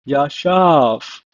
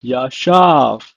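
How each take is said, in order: First: Yashav repeated, final v like f; Hebrew pronunciation. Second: Yashav said as ya-shav, falling; Hebrew pronunciation. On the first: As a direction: model Yashav again. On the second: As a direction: model Yashav clearly. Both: Shown as a demonstration. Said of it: "pronounced as".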